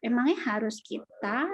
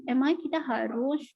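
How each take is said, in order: First: "Emangnya harus kita" as a doubting question ending on "kita"; questioning intonation. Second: "emangnya kita harus" as a doubting question ending on "harus"; questioning intonation. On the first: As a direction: question it, with "kita" placed last and lifted. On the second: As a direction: question it, leaning on the final "harus". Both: Shown as a demonstration. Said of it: "intonasi berbeda, artinya juga berbeda".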